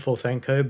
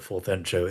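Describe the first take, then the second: First: The name ends with a hard 'ko' sound. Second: The name ends with a 'cho' sound. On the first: The speaker calls it wrong. "I've always called him Forthenko" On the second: The speaker calls it right. "Forthencho is actually probably the correct pronunciation"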